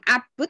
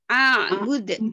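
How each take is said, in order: First: The vowel runs straight into bud, no catch. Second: A throaty 'ain catch separates a from bud. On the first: The speaker calls it wrong. "bukan abud" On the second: The speaker calls it right. "tapi a bud seperti tadi"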